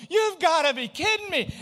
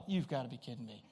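First: Higher, louder cry of exasperation; exasperated yell. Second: Low, soft muttered disbelief under the breath. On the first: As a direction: throw it up at the sky, higher and louder. Hail pouring down on raft. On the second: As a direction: grumble it quietly to yourself, lower and softer. Thunder breaks on raft trip. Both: Retold or imitated.

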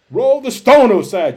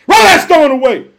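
First: Said in the usual way. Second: Loud, raised-pitch command; shouted command. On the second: Acted. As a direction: shout it as an order from Jesus. Jesus' command repeated as a shout.

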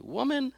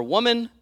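First: "Woman." jumped very high, held short; sharp address repeated. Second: "Woman," shot up high and louder; sharp address. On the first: Shown as a demonstration. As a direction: fling "Woman." up high like a rebuke. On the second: Acted. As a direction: bark out "Woman," high and pointed. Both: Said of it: "He said it just like that too".

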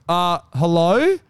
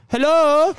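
First: Slow, questioning hello in a normal pitch; unsure, drawn-out reply to a knock; hesitant answer. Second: High, loud little-voiced hello; high-pitched questioning call at the door; little put-on voice. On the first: Retold or imitated. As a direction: answer uncertainly, drawing the word out. Retold wary answer at the door. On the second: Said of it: "I put on a little voice".

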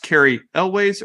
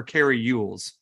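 First: "Elways" said as EL-ways; pronounced Elways. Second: "Ewells" said like YOU-ulls; pronounced Ewells. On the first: Cohost asking how an actor's name is said, pronounced Elways. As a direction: say "Elways" with a first syllable like "ell". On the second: Cohost offering the other way to say a name, pronounced Ewells. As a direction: say "Ewells" starting with a "you" sound. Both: Shown as a demonstration. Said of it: "Is it pronounced".

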